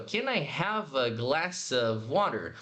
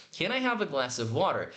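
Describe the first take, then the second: First: Slow "Can I" joined with no pause; "Can I" run together, slowly; slow linked question; linked words. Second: Said in the usual way. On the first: Shown as a demonstration. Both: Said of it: "sem essa pausa".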